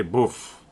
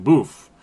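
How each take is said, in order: First: "Boof" with a short vowel; local pronunciation. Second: "Boof" with a long oo; own mispronunciation. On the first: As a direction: shorten the oo in "Boof", nearer to "buff". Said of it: "actually, they say Boof". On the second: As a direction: say "Boof" to rhyme with roof. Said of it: "But actually, they say Boof". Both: Shown as a demonstration.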